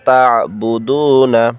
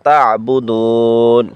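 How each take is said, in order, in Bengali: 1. শব্দটি একটি হ্রস্ব স্বরে শেষ হয়। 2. শব্দটি একটি স্বরহীন ব্যঞ্জনে শেষ হয়।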